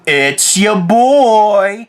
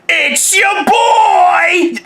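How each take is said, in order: First: It is said with more restrained loudness. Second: It is shouted very loudly with high energy.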